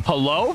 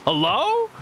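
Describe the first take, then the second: First: Said in the usual way. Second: Much higher, sing-song rising hello; squeaky hello. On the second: Pretend. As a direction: pitch the hello way up, playful. Greeting a subscriber, repeated higher.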